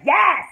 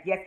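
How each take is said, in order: First: High, very loud YES; excited shout. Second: Said in the usual way. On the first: Retold or imitated. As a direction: belt out a delighted YES. Own cheering reaction after Barry's.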